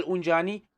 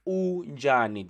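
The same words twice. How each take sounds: First: Said in the usual way. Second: "Unjani" slowly, u-nja-ni, falling at the end; correct accent. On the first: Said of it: "how you spell unjani". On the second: Shown as a demonstration. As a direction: sound out "Unjani" in drawn-out syllables. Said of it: "That's the correct accent".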